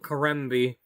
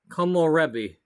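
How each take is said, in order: First: The name is said with three syllables. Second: The name is said with four syllables. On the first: The speaker calls it wrong. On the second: The speaker calls it right.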